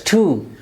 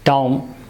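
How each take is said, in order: First: The vowel is long, like oo. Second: The vowel is short. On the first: The speaker calls it right. "it's oo, long vowel sound, that's tomb" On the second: The speaker calls it wrong. "not tomb"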